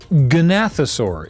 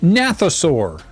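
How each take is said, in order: First: The first letter G is pronounced. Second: The first letter G is silent.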